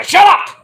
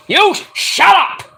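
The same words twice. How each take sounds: First: Sharp high mock shout; snappy high yell. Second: Drawn-out high retort; slow high comeback; slow mock retort. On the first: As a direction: bark it up high. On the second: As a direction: stretch it out, mocking back. Mock argument shouting.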